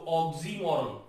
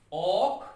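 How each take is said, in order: First: Said in the usual way. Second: 'oxymoron' as ऑक, सी, मो, रन with long pauses; four detached syllables in 'oxymoron'; syllable split. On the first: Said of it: "ऐसे बोलेंगे इसको". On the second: Shown as a demonstration. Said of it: "ऐसे बोलेंगे इसको word को". ('Oxymoron' को चार खंडों में रुककर बोलें)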